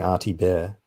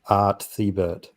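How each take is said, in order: First: The surname ends with a 'bear' sound. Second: The surname ends with a 'bert' sound. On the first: This is how everyone else says it. "I heard everyone saying Artie Bear" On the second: This is how the speaker always said it. "I've always said Art Thibert"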